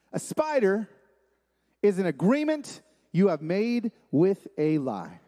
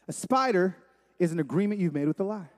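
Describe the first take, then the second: First: Deliberate, spaced phrases with pauses; slow definition. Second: Said in the usual way. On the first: Real, not acted. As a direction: spell out the definition slowly. Definition given slowly, then repeated.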